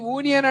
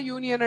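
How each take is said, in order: First: యూనియన్ begun with a pure "oo", no y-glide; యూనియన్ mispronounced with "oo" for "yoo"; wrong vowel onset. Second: Said in the usual way. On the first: Shown as a demonstration. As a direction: say యూనియన్ as "oonion".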